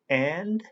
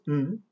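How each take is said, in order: First: The word is said in its full form. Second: The word is reduced to a short n sound.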